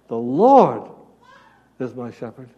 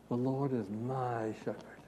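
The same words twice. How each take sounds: First: The stress falls on the word Lord. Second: The stress falls on the word my. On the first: The focus is on the Lord. The speaker calls it right. "Where's the focus on the first reading? The Lord" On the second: The focus is on oneself. The speaker calls it wrong. "if we make the mistake of reading it and thinking about it the second way"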